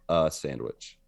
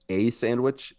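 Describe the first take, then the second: First: The article is said as a reduced 'uh'. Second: The article is said with a full 'ay' vowel. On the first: The speaker calls it wrong. "instead of a sandwich" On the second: The speaker calls it right. "He wanted me to say a sandwich"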